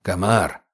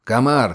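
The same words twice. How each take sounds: First: Muffled growl. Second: Crisp officer calling a soldier; commanding tone. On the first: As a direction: lower growl through a mask. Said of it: "услышал его приглушённое рычание". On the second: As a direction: call the name like an order. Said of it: "перейдя на командный тон". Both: A narrator's reading.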